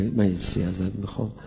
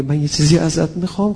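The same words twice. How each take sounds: First: Hussein pleading gently. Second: Hussein asking boldly. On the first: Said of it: "رفته پیش خدا صدا زده". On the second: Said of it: "حسینم وقتی به خدا میگه". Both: Retold or imitated.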